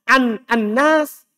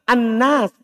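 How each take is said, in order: First: The n is single, with two separate words. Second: The n is doubled and run together. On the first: The speaker calls it right. "Kan bisa an anas" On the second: The speaker calls it wrong. "Kenapa antum tasdid? Kenapa antum baca anas?"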